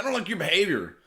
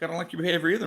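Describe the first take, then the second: First: Higher, louder prissy cop scolding; mock the officer's stiff reprimand; imitating the cop. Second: Sarcastic parrot of the cop; mocking echo. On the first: Mock cop scolding the narrator over his parking, higher and louder. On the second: Narrator mocking the cop's line back at him, higher and sarcastic.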